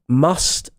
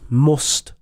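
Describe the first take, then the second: First: Must is said with the uh vowel. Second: Must is said without the uh vowel. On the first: "instead of must" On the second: "there is no uh sound. we always say oh"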